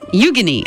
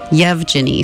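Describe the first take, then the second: First: The name begins with a 'yoo' sound. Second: The name begins with a 'yev' sound. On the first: The speaker calls it right. "It's Eugeny" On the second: The speaker calls it wrong. "I've been calling him Yevgeny because that's how his name is spelled"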